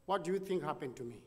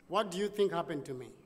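The two takes are said the same way.

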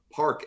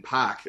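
First: "park" with the R sounded; "park" in general American; standard "park". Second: "park" with the R dropped; "park" in a Boston accent. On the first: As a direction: say park with a clear R. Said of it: "I change little words". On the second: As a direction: say park as "pahk". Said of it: "that's an obvious one". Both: Shown as a demonstration.

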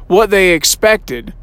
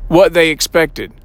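No difference in how they are said.

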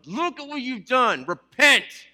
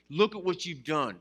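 First: Much higher, louder, hammed-up accusing shout; mock condemning shout. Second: Said in the usual way. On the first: Church imagined scolding a sinner, mock angry shout. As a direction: bark it like a furious judge. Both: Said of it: "we think that we're gonna tell them".

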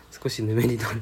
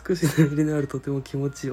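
First: Said in the usual way. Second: Emphatic reread. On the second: Shown as a demonstration.

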